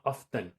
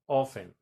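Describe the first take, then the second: First: "often" as OFF-ten, T sounded; the example to avoid: "often" with a clear T; pronounced T. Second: "often" as OFF-en, no T at all; silent T. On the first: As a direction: put the T back into "often". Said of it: "a veces lo pronuncian como often". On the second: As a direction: repeat "often" with the T left out. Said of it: "como si eliminaras la T". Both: Shown as a demonstration.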